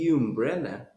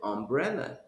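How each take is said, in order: First: It begins with a 'yoo' sound. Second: It begins with an 'uh' sound. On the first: The speaker calls it wrong. "you didn't say umbrella" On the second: The speaker calls it right. "You said umbrella"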